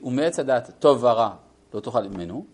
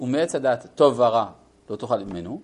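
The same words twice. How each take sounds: First: The phrase breaks right after the word vara. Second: The same.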